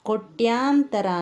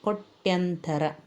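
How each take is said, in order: First: The vowel after 'koty' is long. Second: The vowel after 'koty' is short. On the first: The speaker calls it wrong. "ಅಂತ ಹೇಳ್ತೇವೆ" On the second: The speaker calls it right. "ಸರಿಯಾದ ಪದ"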